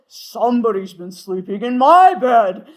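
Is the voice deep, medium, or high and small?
deep. It is said in Papa Bear's deep voice.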